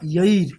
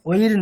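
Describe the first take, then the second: First: The vowel is said with a 'y' glide. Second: The vowel is said without a 'y' glide. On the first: The speaker calls it right. "মানে ইয় আছে" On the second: The speaker calls it wrong. "ওইর না"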